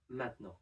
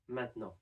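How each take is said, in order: First: The middle vowel is dropped. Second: The same.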